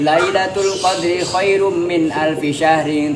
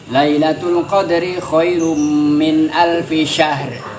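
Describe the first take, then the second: First: The last word ends with its full vowel ending. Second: The last word ends abruptly on its consonant. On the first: The verse is joined to the next one. "Kalau dilanjut berarti kan tinggal dibaca harokat akhir" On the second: The verse is read as a stop on its own. "itu kalau di qat'ul jami, diputus-putus setiap ayat"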